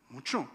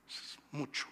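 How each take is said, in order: First: Said in the usual way. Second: Breathy hushed "Es mucho", almost voiceless; whispered aside. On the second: Acted. Repeating the amount for emphasis.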